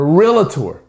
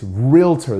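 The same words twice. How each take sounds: First: An extra vowel comes between the L and T. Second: No vowel comes between the L and T. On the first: The speaker calls it wrong. "if I hear someone else calling it a realtor" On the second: The speaker calls it right. "It's realtor. There's no A after the L"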